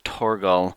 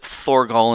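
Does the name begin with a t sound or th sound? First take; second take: t sound; th sound. First: The name begins with a plain t sound. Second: The name begins with a th sound. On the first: "sometimes I pronounce it Torgal" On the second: "sometimes I pronounce it Thorgal"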